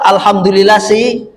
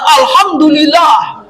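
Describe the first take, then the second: First: It is said half-heartedly and reluctantly. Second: It is said broadly and enthusiastically.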